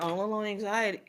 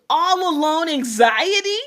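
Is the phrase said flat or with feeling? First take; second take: flat; with feeling. First: It is said flat, without emotional feeling. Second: It is said with strong emotional feeling. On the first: The speaker does not feel the words. The speaker calls it wrong. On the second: The words are truly felt. The speaker calls it right.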